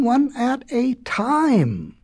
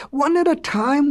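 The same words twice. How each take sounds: First: ONE AT A TIME stretched out slowly, word by word; higher, slow and emphatic "one at a time"; drawn-out insistence. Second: Said in the usual way. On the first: A narrator's reading. Father repeats the order insistently.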